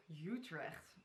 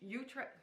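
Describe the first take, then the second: First: "Utrecht?" with a guttural Dutch ch, YOO-trekht, softer and lower; "Utrecht?" corrected to Dutch, throaty ch at the end, quietly questioning; Dutch pronunciation. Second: "Utrecht" said the English way as "YOO-trekt", the final ch dropped; "Utrecht" anglicized, YOO-trekt with no guttural; English-accented Dutch city. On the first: Vlogger corrects herself to the Dutch Utrecht, quiet questioning Dutch pronunciation. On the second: Dutch vlogger catches herself anglicizing Utrecht, English pronunciation.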